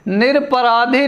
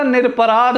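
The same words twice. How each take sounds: First: निरपराधी ending in long ī, nir-parādhī; wrong form. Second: निरपराध ending on dh, nir-parādh; correct form. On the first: Teacher rejecting the faulty word, wrong form. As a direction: add a final ee to निरपराधी. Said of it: "निरपराधी नहीं होता". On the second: Teacher giving the correct word, correct form. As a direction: close निरपराध on the consonant, no ee. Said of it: "निरपराध होता है". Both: Shown as a demonstration.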